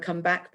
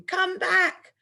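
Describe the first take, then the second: First: Said in the usual way. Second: Much higher, louder shout of come back. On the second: Shown as a demonstration. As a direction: yell it at whoever is running off. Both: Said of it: "he's definitely going to be shouting".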